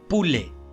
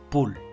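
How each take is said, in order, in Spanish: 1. Se pronuncia una vocal final extra. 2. No se pronuncia ninguna vocal final extra. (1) "No le vamos a pronunciar" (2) "sino solo"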